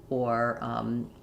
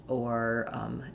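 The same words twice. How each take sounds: No difference in how they are said.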